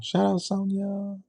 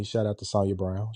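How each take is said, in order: First: High, drawn-out singsong shout-out; teasing high-pitched call; playful singsong. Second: Said in the usual way. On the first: Pretend. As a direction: stretch it out high, like calling sweetly.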